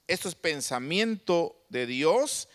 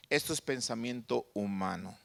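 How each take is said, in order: First: "Dios" lifted in a slow rise; contrast, divine side. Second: "humano" dropped low and soft; falling, quieter close on "humano"; contrast, human side. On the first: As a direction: swing the pitch up on "Dios". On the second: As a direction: let "humano" sink at the end. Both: Shown as a demonstration. Contrast divine and human thought.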